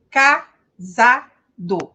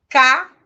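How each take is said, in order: First: "Casado" drawn out slowly, every syllable said clearly; slow syllable reading. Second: Ca-sa-do sounded out syllable by syllable, loud; teacher reading "Casado" syllable by syllable; Portuguese syllable reading. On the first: Teacher demonstrating Portuguese syllables to students, slow and loud. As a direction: stretch out "Casado" so each of its three syllables is heard. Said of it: "pronuncia da mesma maneira que a gente lê". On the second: Teacher showing students Portuguese syllable reading, loud and deliberate. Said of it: "A gente lê no português da mesma maneira".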